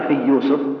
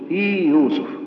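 First: The long i merges into the following y. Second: The long i is held before the y. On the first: The speaker calls it wrong. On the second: The speaker calls it right.

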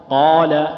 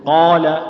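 No difference in how they are said.

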